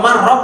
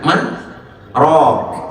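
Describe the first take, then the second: First: The syllables run together with no pause. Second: There is a brief pause between the syllables. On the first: It means vegetable broth. The speaker calls it wrong. "Kalau marrok artinya kuah sayur" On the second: It asks who can heal. The speaker calls it right. "Saktah, berhenti sejenak"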